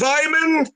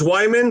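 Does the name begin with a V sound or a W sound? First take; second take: V sound; W sound. First: The name begins with a V sound. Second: The name begins with a W sound. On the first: This is how it is said in Germany. "if I go to Germany, it's Herr Wyman" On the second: This is the usual English way of saying it. "my last name is Wyman"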